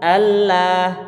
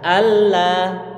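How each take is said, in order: The two takes are said the same way.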